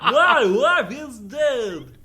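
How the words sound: It is said in an impression of Boone.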